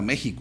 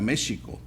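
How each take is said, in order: First: The x sounds like a rough h. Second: The x sounds like a soft sh. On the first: This is the later, modern pronunciation. "no era México" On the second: This is the older, original pronunciation. "era México"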